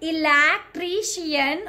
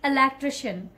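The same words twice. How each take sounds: First: Every syllable is given strong stress. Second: Only one or two syllables are stressed, smoothly. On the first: The speaker calls it wrong. "don't call it electrician" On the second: The speaker calls it right. "stress on one or two syllable, but not on all the syllable; very smooth"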